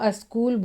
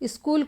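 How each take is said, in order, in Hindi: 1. शब्द एक अतिरिक्त स्वर ध्वनि से शुरू होता है। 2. शब्द सीधे s ध्वनि से शुरू होता है। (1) "अस्कूल बोलेंगे" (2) "स्कूल को"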